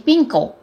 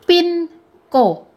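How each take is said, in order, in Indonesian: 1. Diucapkan cepat, suku katanya menyatu. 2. Diucapkan lambat, suku katanya terpisah.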